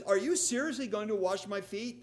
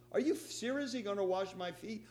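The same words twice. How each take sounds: First: Incredulous, indignant rising question; disbelieving Peter, louder and higher. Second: Mildly indignant question; a touch of indignation. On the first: Peter protesting to Jesus, indignant. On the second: Peter questioning Jesus, mildly indignant. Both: Retold or imitated. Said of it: "With a little tone of indignation".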